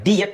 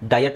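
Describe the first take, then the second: First: The first syllable sounds like 'dee'. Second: The first syllable sounds like 'die'. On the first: The speaker calls it wrong. "ಡಿಯಟ್ ಅಂತ ಹೇಳಲ್ಲ" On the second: The speaker calls it right. "ಡಯಟ್ ಅಂತ ಹೇಳ್ತೀವಿ"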